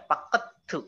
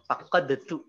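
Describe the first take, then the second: First: The d merges into the t and disappears. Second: The d is sounded separately before tu. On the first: "Kalau misalnya pakai tajwid kan jadi dimasukin" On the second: "Cuma kalau ini fakot detu"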